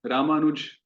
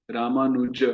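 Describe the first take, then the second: First: "रामानुज" ending on a bare j; wrong clipped form. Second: "रामानुज" with the final a sounded, "Ramanuja"; correct full form. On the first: Teacher showing students how not to say it, clipped. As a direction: say "रामानुज" as "Ramanuj", the vowel dropped. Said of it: "नहीं". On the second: Teacher showing students the correct Sanskrit form. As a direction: end "रामानुज" on a short open a. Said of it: "रामानुज नहीं". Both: Shown as a demonstration.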